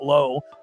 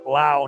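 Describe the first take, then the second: First: The vowel sounds like the one in go. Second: The vowel sounds like the one in cow. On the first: The speaker calls it wrong. "not Low" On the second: The speaker calls it right. "the only one in baseball that pronounces it Lau"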